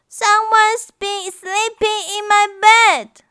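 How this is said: A wailing, crying voice, as Baby Bear.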